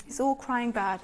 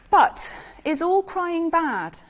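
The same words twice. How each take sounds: First: Quiet repeat, dropped right down; softer echo. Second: Slow, raised, weighing the word all; slow rhetorical question. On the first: Speaker repeats the question to the audience, quiet and reflective. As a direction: let the question sink in, softer. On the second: Speaker asks the audience of parents, slow and raised. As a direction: pose it to the room slowly, higher up. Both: Shown as a demonstration.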